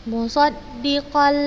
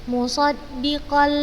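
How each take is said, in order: The two takes are said the same way.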